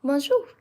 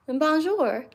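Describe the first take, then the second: First: A cleaner, more French Bonjour; better French. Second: Bonjour in a heavy American accent with a hard r; an American tourist's Bonjour. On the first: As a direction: Bonjour said the French way, ending without an r. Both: Real, not acted. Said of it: "that was a very American accent".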